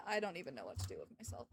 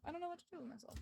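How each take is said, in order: First: Despairing mutter. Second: Softer despairing repeat. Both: Real, not acted.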